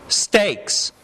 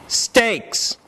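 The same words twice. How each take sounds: The two takes are said the same way.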